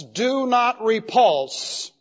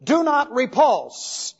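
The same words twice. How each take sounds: First: Slow, deliberate stress on NOT; "Do not repulse" drawn out, "not" stressed; slow emphasis. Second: Slow, deliberate stress on DO; "Do" stressed in a slow, raised phrase; slow emphasis. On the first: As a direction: lean on "not" slowly. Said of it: "it means repulse". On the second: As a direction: draw out "Do not repulse" and lean on "Do". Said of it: "he can say". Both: Shown as a demonstration.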